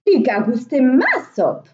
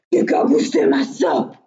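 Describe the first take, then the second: First: Loud storybook middle-bear voice; Mehdi Ours. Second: Big bear's loud outcry; loud storybook big-bear voice; Grand Ours. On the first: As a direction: middle bear's loud exclamation. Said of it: "s'excria à son tour Mehdi Ours". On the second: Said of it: "s'excria Grand Ours". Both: A narrator's reading.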